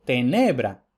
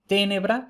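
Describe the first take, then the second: First: Tenebra with stress moved to the middle syllable. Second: Tenebra with high stress on the first syllable. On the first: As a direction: lean on NE in tenebra, falling after. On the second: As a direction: punch the TE of Tenebra, higher pitch. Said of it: "clásico". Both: Shown as a demonstration.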